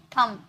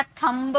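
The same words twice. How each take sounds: First: थंब ending on m, said as "thum"; silent b. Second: थंब with the b wrongly voiced at the end; sounded final b. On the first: Teacher correcting students, थंब with no b sound. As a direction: close थंब on m, leaving off the b. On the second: Teacher showing students the mistake, थंब with audible b. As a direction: release a clear b after the m in थंब. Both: Shown as a demonstration. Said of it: "ये sound इसका नहीं है".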